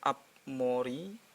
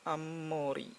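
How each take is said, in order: First: A B sound comes before the M. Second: An M sound comes before the M. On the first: The speaker calls it wrong. "bukan Ab-mori" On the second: The speaker calls it right. "tapi Ammori"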